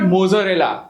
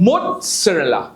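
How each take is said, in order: First: There is no T sound before the Z. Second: There is a T sound before the Z. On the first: The speaker calls it wrong. "So it is not mozzarella" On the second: The speaker calls it right. "So T is not there but you speak it"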